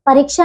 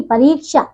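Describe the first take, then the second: First: परीक्षा with a short middle vowel: pariksha; mispronunciation. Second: परीक्षा with a long "ree"; correct pronunciation. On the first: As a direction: clip the "ri" in परीक्षा. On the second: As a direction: draw out the middle of परीक्षा. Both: Shown as a demonstration. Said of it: "परीक्षा नहीं".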